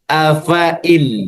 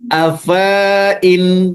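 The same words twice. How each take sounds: First: The vowel is kept short. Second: The vowel is drawn out long. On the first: The speaker calls it right. "Tapi afain. Tidak berfungsi" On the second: The speaker calls it wrong. "Jadi tidak boleh dibaca panjang"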